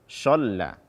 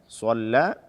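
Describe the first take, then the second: First: The first consonant is an sh sound. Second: The first consonant is a light plain s. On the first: "Atau dengan shin"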